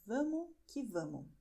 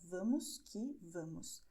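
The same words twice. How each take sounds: First: The words are reduced and run together casually. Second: Every word is pronounced fully and carefully. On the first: The speaker calls it right. "I am pronouncing the way that we pronounce it when we talk informally" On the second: The speaker calls it wrong. "The words are vamos que vamos, but nobody would uh, express it this way"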